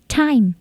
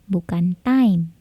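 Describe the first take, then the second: First: The t is released with a strong puff. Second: The t is released without a strong puff. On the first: The speaker calls it right. "T-nya plosif ya" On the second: The speaker calls it wrong.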